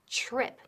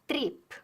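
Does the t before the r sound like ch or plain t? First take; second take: ch; plain t. First: The t before the r sounds like ch. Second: The t before the r is plain t. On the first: The speaker calls it right. "it sounds like ch, como C H" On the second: The speaker calls it wrong. "No es trip. eso es típico de Spanish"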